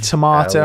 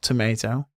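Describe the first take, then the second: First: It is said with a British pronunciation. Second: It is said with an American pronunciation. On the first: This is how the speaker says it. "I say tomato" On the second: This is how the speaker does not say it. "and not tomato"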